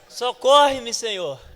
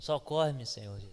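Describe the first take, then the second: First: It is shouted loudly and urgently. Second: It is said weakly and quietly.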